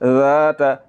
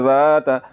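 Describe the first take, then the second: First: The vowel after the first consonant is drawn out long. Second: The same.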